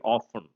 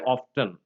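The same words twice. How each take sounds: First: The t sound in the middle is silent. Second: The t sound in the middle is pronounced. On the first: This is the usual British way of saying it. "usually in British English we have only often" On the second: This is the American way of saying it. "Americans would say often"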